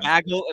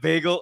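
First: The word bagel is said the Canadian way. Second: The word bagel is said the non-Canadian way. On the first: "they say bagel" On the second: "instead of bagel"

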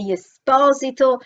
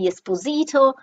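First: It is said the Italian way. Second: It is said the American way.

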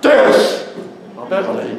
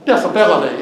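First: The stress falls on the first syllable 'dis'. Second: The stress falls on the 'ability' part.

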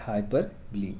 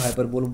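First: The word ends in a 'bly' syllable. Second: The word ends in a single 'bowl' syllable. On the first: The speaker calls it right. "इसका जो actual pronunciation है it is हाइपरबली" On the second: The speaker calls it wrong. "इसको हाइपरबोल भी कुछ लोग pronounce करते हैं"

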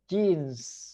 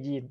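First: The word begins with a j sound. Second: The word begins with a y sound. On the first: This is how native speakers say it. "แต่ฝรั่งเป็นกางเกงจีนส์" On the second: This is how local speakers usually say it. "คนจะออกเสียงกางเกงยีน"

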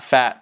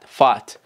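First: The vowel is short and clipped. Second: The vowel is drawn out long. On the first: The speaker calls it wrong. "not fat" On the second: The speaker calls it right. "double A will be more"

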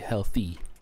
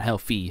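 First: The end sound is a TH, like healthy. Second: The end sound is an F, like helfy. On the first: The speaker calls it right. "With a TH" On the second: The speaker calls it wrong. "not an F"

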